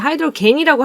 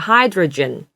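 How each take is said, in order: First: The g is a hard g sound. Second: The g is a soft j sound. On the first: The speaker calls it wrong. "겐이 아니라" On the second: The speaker calls it right. "G 발음이에요"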